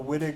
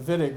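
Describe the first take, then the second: First: The name begins with a W sound. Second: The name begins with a V sound. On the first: The speaker calls it wrong. "we will smirk at you a little bit" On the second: The speaker calls it right. "we organic chemists pronounce the W like the German speakers would"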